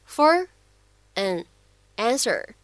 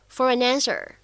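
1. 这三个词是分开说的。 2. 这三个词是连在一起说的。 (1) "最后的这样的三个单词for, an, answer" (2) "咱们呢可以连读变成for an answer"

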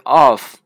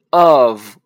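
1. 这个单词结尾是 f 音。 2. 这个单词结尾是 v 音。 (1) "不是of" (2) "是of，第一个o 呢发的是这个音f 发的是v 的音"

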